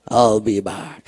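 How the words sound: It is said in a put-on action-hero voice.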